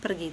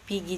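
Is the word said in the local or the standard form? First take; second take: standard; local. First: The word is said in its standard Indonesian form. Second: The word is said in its local Lembata form. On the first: The speaker calls it right. "kata aslinya kan pergi, Indonesia kan pergi" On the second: The speaker calls it wrong. "kalau kita menyebutnya pergi, jadi itu sudah sudah masuk dalam konsep bahasa yang salah"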